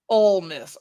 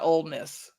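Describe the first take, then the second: First: The first word ends without a d sound. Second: The first word ends with a d sound. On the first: The speaker calls it right. "O L E" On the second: The speaker calls it wrong. "not Old Miss"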